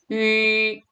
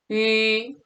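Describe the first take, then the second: No difference in how they are said.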